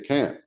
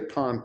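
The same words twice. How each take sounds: First: The word is said in an American accent. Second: The word is said in an Indian accent. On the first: This is how it is said in the new dialect. "you say can't" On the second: This is how it was said in the old dialect. "you don't say can't anymore"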